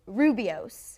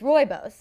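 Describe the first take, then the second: First: The name is pronounced phonetically, as spelled. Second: The name is pronounced in the standard way. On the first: The speaker calls it wrong. "I've been saying this tea wrong my entire life" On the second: The speaker calls it right. "you guys told me it's Rooibos"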